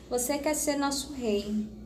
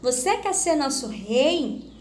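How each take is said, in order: First: It is said with a flat statement intonation. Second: It is said with a questioning intonation. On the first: The speaker is asserting something. "Se não tivesse o ponto de interrogação, ... Eu estaria o quê? Afirmando" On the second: The speaker is asking something. "É uma pergunta"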